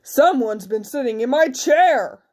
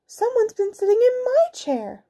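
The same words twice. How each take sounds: First: Big, emphatic bear voice; big bear's indignant grumble. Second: Very high mother bear voice. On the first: Big bear finds chair used, indignant big voice. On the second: Mother bear finds chair used, high indignant voice. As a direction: complain in a high falsetto. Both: A narrator's reading.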